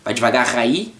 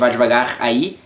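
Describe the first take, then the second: No difference in how they are said.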